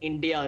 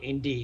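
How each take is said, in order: First: The word ends with a final 'a' sound. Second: The word ends without a final 'a' sound. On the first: The speaker calls it right. "I N D I A is pronounced as India" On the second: The speaker calls it wrong. "not Indy"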